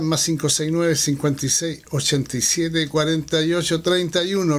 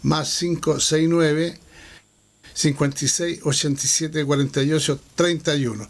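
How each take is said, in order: First: The number is read at normal speed. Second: The number is read a bit more slowly.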